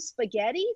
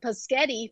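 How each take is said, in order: First: The opening sounds are in normal order. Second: The opening sounds are swapped, like paschetti. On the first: The speaker calls it right. "So that they hear it appropriately" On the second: The speaker calls it wrong. "I can't even say it right"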